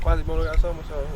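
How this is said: The voice is high and fast. "Then when you speed it up"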